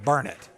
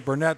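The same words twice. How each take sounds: First: It is pronounced the local Austin way. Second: It is pronounced the common outsider way. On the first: "They call it Burnett" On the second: "everybody in the world would say Burnett"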